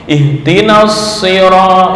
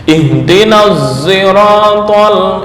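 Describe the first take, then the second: First: The word begins with a heavy, emphatic s sound. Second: The word begins with a z-like sound, lips rounded. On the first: "membaca dengan shad murni" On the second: "ishmam shad berubah menjadi suara za"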